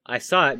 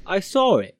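First: Said in the usual way. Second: "I saw it" run together as "I sawr it", higher and louder; "saw it" joined with an R, emphatic demo; linking R. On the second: Shown as a demonstration. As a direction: slip an R between "saw" and "it". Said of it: "addition of R before a vowel".

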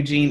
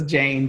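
First: "Jean" with a long ee vowel, like the French name; name misheard. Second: "Jane" with the long a of "rain", American accent; name said right. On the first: Correcting a misheard name, saying it as Jean. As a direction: say "Jean" the way the listener misheard it, "zheen". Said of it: "it might have sounded like Jean". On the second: Correcting the host on her name, saying it as Jane. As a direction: say "Jane" clearly, rhyming with "rain". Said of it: "that's my American accent". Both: Shown as a demonstration.

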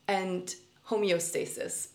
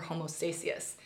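First: "homeostasis" said carefully, slowly, as ho-me-o-STAY-sis; slow self-correction of "homeostasis" with every syllable; deliberately fix it: "homeostasis", slowed down; corrected pronunciation. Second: "homostasis" said without the e, like homo-stasis; "homostasis" read as homo-STAY-sis by mistake; mispronounced. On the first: Shown as a demonstration. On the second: Real, not acted. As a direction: slip on "homostasis", dropping the middle syllable. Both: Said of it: "pardon for saying that wrong".

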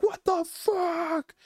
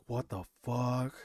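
First: Very high, slow, stretched-out disbelief; mock screaming amazement. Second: Retold stunned letdown, drawn out and subdued; deflated disbelief. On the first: Friends watching the accident from down the street, screaming amazement. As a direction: imitate hyped friends squealing in shock. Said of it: "just started screaming". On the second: Realizing the meeting was just down the street, deflated.

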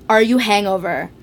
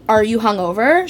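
First: "hangover" with an A in the first syllable; mother's mistake. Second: Said in the usual way. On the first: Retold or imitated. Daughter quoting her mother's slip, saying "hangover" for hungover. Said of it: "She goes". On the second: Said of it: "she doesn't say".

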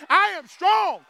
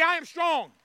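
First: High, loud declaration; with conviction. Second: Said in the usual way. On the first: Shown as a demonstration. Preacher showing the congregation how to say it, with conviction. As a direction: belt it out like you believe it. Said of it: "say it like you believe it". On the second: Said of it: "you gotta say it like you believe it".

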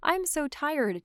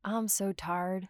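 First: Said in the usual way. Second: Drawn-out Georgia Southern accent, slow. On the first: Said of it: "then I go from". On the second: Shown as a demonstration. Showing her co-host her tired Georgia drawl: slow Southern accent. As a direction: let the Georgia accent go broad and relaxed. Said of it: "to, like".

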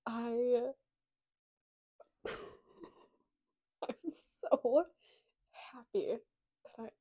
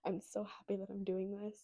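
First: Bursting with joy; excited happy burst. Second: Said in the usual way. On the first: Real, not acted. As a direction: blurt out how happy you are, a little louder. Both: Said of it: "I mean, you can tell".

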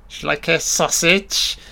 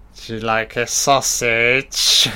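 First: Higher-pitched put-on host voice, rising question; hammy, lilting offer; Mister Wonderful. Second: Slow, hammed-up suggestive offer; slow comic innuendo; Mister Wonderful. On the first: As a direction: play the host offering food in a silly high voice. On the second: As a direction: draw it out in a put-on voice, rising at the end. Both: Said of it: "I'm Mister Wonderful".

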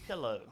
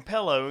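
First: PILLOW as pill-oh; pillow with short i. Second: PILLOW with an eh, pell-oh; "pillow" with first vowel eh; pillow as pellow. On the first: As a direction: say "pillow" with an ih first vowel. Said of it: "You say pillow". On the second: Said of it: "too lazy to say fucking". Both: Shown as a demonstration.

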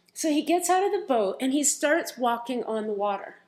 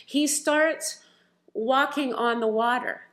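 First: Said in the usual way. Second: "He starts", pausa, luego "walking on the water" lento y marcado; pausa enfática. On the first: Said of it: "I'm gonna pause there". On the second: Shown as a demonstration. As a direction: detente tras "starts" y remarca "walking". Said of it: "I'm gonna pause there for a moment".

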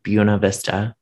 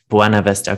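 First: "Buena" said BYOO-nuh; local pronunciation. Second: "Buena" said BWAH-nuh; corrected Spanish pronunciation. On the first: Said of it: "all of the locals called it". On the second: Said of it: "No one should ever say that Buena is the correct word". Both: Shown as a demonstration.

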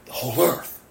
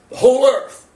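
First: Said in the usual way. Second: THE WHOLE EARTH high and loud; emphatic repeat. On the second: Real, not acted. Preacher telling church how far gospel goes, "whole earth" proclaimed emphatically. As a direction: punch out "whole earth" at a raised pitch.

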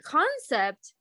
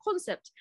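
First: Said in the usual way. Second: Concept said higher, the Korean way; Konglish pronunciation. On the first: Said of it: "concept is a Konglish word". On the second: Shown as a demonstration. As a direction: imitate the Konglish loanword concept, pitched up. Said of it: "like, they use it".

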